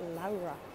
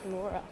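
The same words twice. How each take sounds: First: The name has a Portuguese pronunciation. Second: The name has an English pronunciation. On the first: This is how the name is said in Portugal. "he's Portuguese and they pronounce it Laura" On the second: This is how the name's owner says it. "how do you say your name? I was like"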